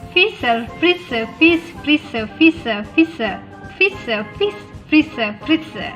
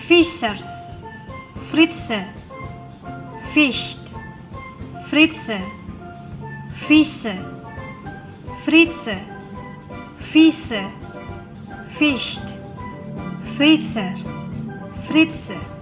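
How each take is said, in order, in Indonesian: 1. Diucapkan dengan tempo yang sangat cepat. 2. Diucapkan dengan tempo yang lambat dan hati-hati. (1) "Lebih cepat lagi" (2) "kalian ikutin saya ya"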